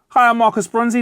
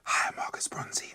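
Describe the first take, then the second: First: It is said slightly louder than normal. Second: It is said in a whisper.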